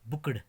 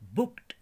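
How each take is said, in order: First: The word ends with a d sound. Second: The word ends with a t sound. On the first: The speaker calls it wrong. "बुकड गलत है" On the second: The speaker calls it right. "इसकी सही pronunciation है ब उ क ट"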